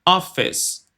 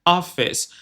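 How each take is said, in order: No difference in how they are said.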